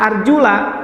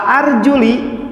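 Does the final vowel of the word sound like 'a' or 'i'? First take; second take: a; i. First: The word ends with an 'a' vowel. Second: The word ends with an 'i' vowel. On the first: The feet are among the parts to be washed. "ketika kita membaca arjula" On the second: The feet are linked to the head, which is wiped. "dengan cara dikasrohkan"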